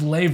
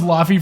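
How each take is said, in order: First: The name sounds like 'lay-vay'. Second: The name sounds like 'low-fee'. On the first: This is how the name is actually pronounced. The speaker calls it right. "it's pronounced Leve" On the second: This is how it looks when first read. The speaker calls it wrong. "I thought it was Lofi for the longest time"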